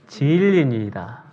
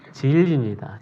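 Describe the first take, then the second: First: Every syllable of the ending is said in full. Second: The ending is squeezed into two short syllables. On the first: The speaker calls it right. "발음을 잘해야 돼요" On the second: The speaker calls it wrong. "진리니다가 아니라"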